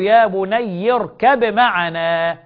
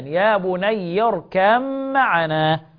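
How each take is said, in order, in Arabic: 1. تُنطق الباء بوضوح قبل الميم. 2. تُدغم الباء في الميم التي بعدها. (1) "يقرأ بالإظهار قولا واحدا" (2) "يقرؤون بالإدغام قولا واحدا"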